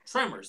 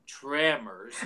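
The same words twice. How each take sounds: First: Said in the usual way. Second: Tremors stretched slow, leaning on the M; imitating an over-slow "tremors"; mocking drawn-out TREMORS. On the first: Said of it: "Everyone says tremors". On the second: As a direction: exaggerate tremors, dragging out the "trem". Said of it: "extenuating the M".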